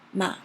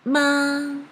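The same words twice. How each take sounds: First: The pitch dips low, then rises high. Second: The pitch stays high and level. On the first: "start really low and had a little bit twist and then rising up high" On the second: "It is very high and flat"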